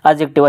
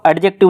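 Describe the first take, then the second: First: The d sound is left silent. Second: The d sound is clearly pronounced. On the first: The speaker calls it right. "डी silent रहता है" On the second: The speaker calls it wrong. "एडजेक्टिव नहीं बोलना"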